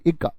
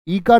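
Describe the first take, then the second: First: The first vowel is short. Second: The first vowel is long. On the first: The speaker calls it right. "इक्का है" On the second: The speaker calls it wrong. "ई का नहीं, ई का तो दीर्घ वाली"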